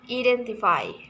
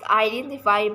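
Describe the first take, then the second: First: The word begins with a plain ee vowel. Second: The word begins with an eye diphthong. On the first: The speaker calls it wrong. "the learners pronounce it with identify" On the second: The speaker calls it right. "which should be pronounced identify"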